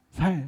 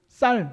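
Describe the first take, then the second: First: The word begins with a plain 's' sound. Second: The word begins with a tense 's' sound. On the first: The speaker calls it wrong. "쌀을 못하고 뭐라고 한다고요? 살" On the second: The speaker calls it right. "쌀 하고 해보라고 하면"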